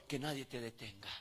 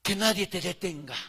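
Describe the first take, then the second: First: Much softer, lower, falling repeat; quiet repeat. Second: Said in the usual way. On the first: Shown as a demonstration. Preacher repeating his charge to the congregation, much softer. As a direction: drop it down to a hush. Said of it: "repeated exhortation, softer take". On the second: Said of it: "repeated exhortation, first take".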